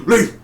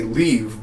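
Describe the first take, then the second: First: High-pitched, abrupt "Leave"; odd mimicked command. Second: Said in the usual way. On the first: Mocking how the lover says it, sharp high command. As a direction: imitate a strangely sudden order to go. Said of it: "Like, who says that?". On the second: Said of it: "just say".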